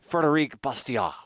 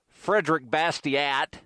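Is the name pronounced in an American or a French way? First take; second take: French; American. First: The name is said with a French pronunciation. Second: The name is said with an American pronunciation. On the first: The speaker calls it right. "the correct pronunciation would probably be" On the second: The speaker calls it wrong. "most Americans call"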